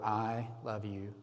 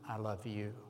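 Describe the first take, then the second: First: The word "I" carries the stress. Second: The word "you" carries the stress. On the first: "emphasizing each word" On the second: "emphasizing each word"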